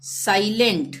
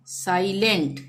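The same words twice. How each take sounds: The two takes are said the same way.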